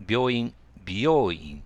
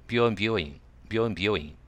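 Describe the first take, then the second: First: 病院、美容院 drawn out slowly, louder, each syllable separate; slow and distinct. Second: 病院、美容院 run off quickly so they sound alike. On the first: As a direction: spell out 病院、美容院 slowly for a learner. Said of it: "ゆっくり言ってあげないと". (「病院、美容院」をゆっくりはっきり) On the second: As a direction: rattle off 病院、美容院 with little distinction. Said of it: "これ早く言うと". (「病院、美容院」を早口で) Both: Shown as a demonstration.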